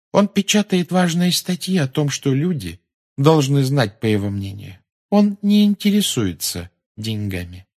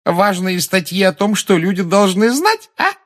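First: Higher voice, slowing as it goes; earnest daughter. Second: High, loud taunting echo; jeering, high-pitched parroting; mocking. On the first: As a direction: defend your father in all sincerity. Luna earnestly defends her father's paper. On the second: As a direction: throw the phrase back with open derision. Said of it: "произнесла она с издёвкой". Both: A narrator's reading.

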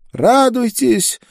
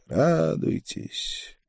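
First: High drawn-out woman's shout; loud cry. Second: High, soft, long-drawn distant cry; a desperate call heard from far down the street; muffled desperate cry. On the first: Drunk girl crying out before she bursts into sobs, loud high cry. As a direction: cry it out high and slow, close to sobbing. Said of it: "громко крикнула она". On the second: Woman's cry reaching the rider leaving the street, muffled and desperate. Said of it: "донёсся приглушённый, отчаянный крик". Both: A narrator's reading.

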